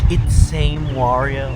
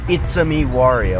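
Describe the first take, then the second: First: The middle is one syllable, 'same'. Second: The middle is two syllables, 'a me'. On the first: The speaker calls it wrong. "a bunch of those people always go like" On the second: The speaker calls it right. "it should just be obvious that it's it's a me, Wario"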